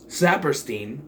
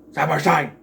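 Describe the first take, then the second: First: Said in the usual way. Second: Saperstein ending in "stine", loud and punched. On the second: Shown as a demonstration. Reviewer repeats a pirate's name, Saperstein with a loud "stine" ending. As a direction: rhyme the end of Saperstein with "fine". Says name two contrasting ways.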